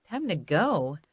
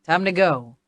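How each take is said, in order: First: Subdued, hesitant inner echo; reluctant echo. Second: Brisk, firm call to leave; lightly voiced male companion. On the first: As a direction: repeat it softly to yourself, unsure. Narrator echoes Clay's words doubtfully. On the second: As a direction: tell the group it's time, firmly. Clay calls time to leave. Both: A narrator's reading.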